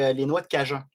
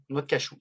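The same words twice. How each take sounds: First: "cajun" said in place of cashew, ending like the spice; slip of the tongue. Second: "cachou" said with a clear "ch", ka-shoo; self-correction. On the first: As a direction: says "noix de cajun" by mistake, "ka-jun". (« cajun » dit par erreur au lieu de cajou) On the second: (« cachou » prononcé ka-chou pour se corriger) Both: Real, not acted. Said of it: "De cajou, voyons".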